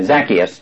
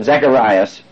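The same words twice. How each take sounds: First: "Zacchaeus" said ZAK-ee-us, lower and settled; corrected name. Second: "Zacharias" said ZAK-uh-RYE-us by mistake; wrong name. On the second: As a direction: slip and say "Zacharias" instead of Zacchaeus. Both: Real, not acted. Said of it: "or I mean".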